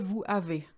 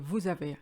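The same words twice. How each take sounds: First: The two words are said separately, without linking. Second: The two words are linked into one sound. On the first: The speaker calls it wrong. "We don't say vous avez" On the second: The speaker calls it right. "language flows better when you say vous avez"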